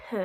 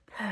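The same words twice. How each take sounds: First: Said in the usual way. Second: P with a strong puff of air; breathy P. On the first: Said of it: "Try p". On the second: Shown as a demonstration. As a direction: push more breath through the P. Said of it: "add a little more breath to it".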